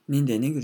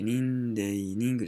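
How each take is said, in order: First: It is said quickly and with intense effort. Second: It is said slowly and in a relaxed way. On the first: The speaker calls it right. "もう一生懸命読むの" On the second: The speaker calls it wrong. "のんびり、人間、人間って言わないですよ"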